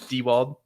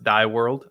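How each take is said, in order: First: The name sounds like 'Dewald'. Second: The name sounds like the words 'die world'. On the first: It is the real pronunciation of the name. The speaker calls it right. "I mean Dewald" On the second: It is a joking mispronunciation of the name. The speaker calls it wrong. "pronounced Die World"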